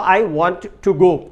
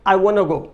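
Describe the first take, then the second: First: Each word is pronounced fully and separately. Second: It is said fast with want to merged.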